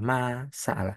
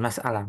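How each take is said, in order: First: MA drawn out, then SA'ALA apart; split into two words. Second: "masalah" said as one word; everyday Indonesian "masalah", joined up; run-together word. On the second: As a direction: say "masalah" in one go, no break after ma. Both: Shown as a demonstration. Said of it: "bukan masalah".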